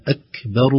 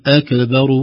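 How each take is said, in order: First: أكبر with just a little air on the kaf; correct, whispered kaf. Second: أكبر with a bouncing echo on the kaf; wrong, echoed kaf. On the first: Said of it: "خروج فقط هواء يسير". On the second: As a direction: pop the kaf in أكبر like a qalqala. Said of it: "هذه قلقلة". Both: Shown as a demonstration.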